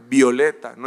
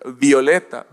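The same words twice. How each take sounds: Both takes have the same delivery.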